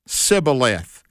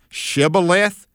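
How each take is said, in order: First: The word begins with a plain s sound. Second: The word begins with an sh sound. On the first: The speaker belongs to the enemy. The speaker calls it wrong. "They'd say Sibboleth because they couldn't put the sh on the front" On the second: The speaker belongs to the right team. The speaker calls it right. "the members of the right team would say Shibboleth"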